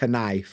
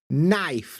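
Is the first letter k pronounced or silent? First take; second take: pronounced; silent. First: The k at the start is pronounced. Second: The k at the start is silent. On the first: The speaker calls it wrong. "not knife" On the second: The speaker calls it right. "silent letters that are just silent in the word itself"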